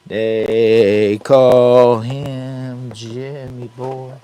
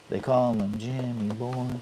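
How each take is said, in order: First: Slow, louder, higher showman call; drawn-out announcer intro. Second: Quieter, offhand catchphrase; softer repeat. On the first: Introducing himself to viewers as a slow hammed-up announcer. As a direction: stretch it out like a ringmaster. Self-intro catchphrase to camera. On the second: Repeating his own nickname to viewers, softly. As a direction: toss it off almost under the breath. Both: Pretend.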